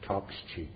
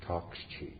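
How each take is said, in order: First: Said in the usual way. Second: "Talk's cheap." whispered, much softer; whispered echo. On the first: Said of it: "repeated line, first take". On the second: Shown as a demonstration. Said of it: "repeated line, whispered echo".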